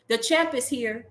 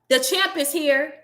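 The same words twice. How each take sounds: First: It is said at a normal volume. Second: It is said much louder, almost shouted.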